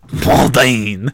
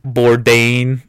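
First: It is said nasally, in a French accent. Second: It is said in an American accent.

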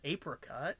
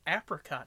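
First: The first syllable sounds like 'ape'. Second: The first syllable sounds like 'app'. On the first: The speaker calls it wrong. "not apricot" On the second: The speaker calls it right. "Nothing, because it's apricot"

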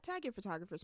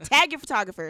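First: It is said quietly and gently. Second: It is said loudly and forcefully. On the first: The speaker calls it wrong. "you speak very soft" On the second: The speaker calls it right. "Say it with your chest"

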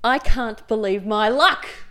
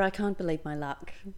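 First: It is said in a broad Australian accent. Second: It is said in a posh accent. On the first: "That's the most Australian I've ever sounded" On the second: "Don't try and be posh"

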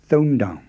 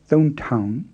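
First: The second syllable starts with a voiced D. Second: The second syllable starts with a voiceless T. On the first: The speaker calls it right. "you voice it and say down with a D sound" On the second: The speaker calls it wrong. "Not thon town"

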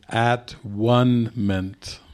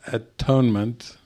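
First: The word is split into at, one, ment. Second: The word is said smoothly as one unit. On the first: It means oneness. The speaker calls it right. "It is at-one-ment" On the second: It means correction. The speaker calls it wrong. "You are mispronouncing the word. It is not atonement"

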